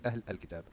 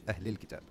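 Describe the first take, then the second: First: Ahl Al-Kitab with the article sounded separately; wrong reading. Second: Ahlil Kitab with the words joined through the wasla; linked reading. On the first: Teacher showing students the wrong way, Ahl Al-Kitab said unlinked. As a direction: Ahl Al-Kitab read word by word with no linking. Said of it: "We're not gonna say". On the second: Teacher showing students the right linked reading, Ahlil Kitab. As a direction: Ahlil Kitab run together as one flowing phrase. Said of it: "We're gonna say". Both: Shown as a demonstration.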